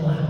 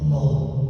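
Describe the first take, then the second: First: The syllable is said light and thin. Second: The syllable is said heavy and thick. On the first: The letter before it has a kasrah vowel. "Kalau huruf sebelum lafaz Allah di kasroh, itu pasti bacanya lah" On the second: The letter before it has a fathah or dhammah vowel. "tafkhim, tebal"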